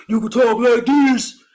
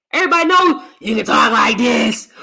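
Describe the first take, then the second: First: Put-on smooth voice. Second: Said in the usual way. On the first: Shown as a demonstration.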